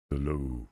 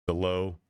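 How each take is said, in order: First: Low voice, down at the bottom of the scale; baritone demo. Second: Said in the usual way. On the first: Shown as a demonstration. Explaining what a baritone is, low demonstrated voice. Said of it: "The voice down here". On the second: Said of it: "Baritone is the low".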